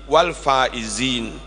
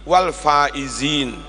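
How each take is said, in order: The two takes are said the same way.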